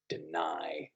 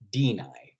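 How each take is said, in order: First: The stress is on the second syllable. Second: The stress is on the first syllable. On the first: The speaker calls it right. "Those sorts of words are in I ams" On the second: The speaker calls it wrong. "just like you wouldn't say"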